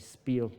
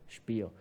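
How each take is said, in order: First: The word is pronounced the English way. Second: The word is pronounced the German way. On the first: The speaker calls it wrong. "not to say Spiel" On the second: The speaker calls it right. "the proper German pronunciation of Spiel"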